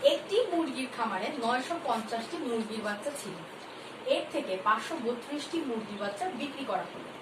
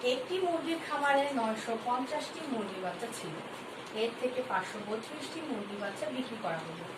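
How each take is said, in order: Both takes have the same delivery.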